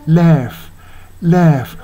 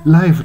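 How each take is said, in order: First: ライフ with "ai" flattened toward "eh"; widened "ai" vowel. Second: Said in the usual way. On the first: Shown as a demonstration. Teacher showing the song's different pronunciation, open "eh" vowel. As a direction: say ライフ as a drawn "lehf", not "laif". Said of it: "発音がちょっと違うんですよね". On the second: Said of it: "ライフじゃなくて".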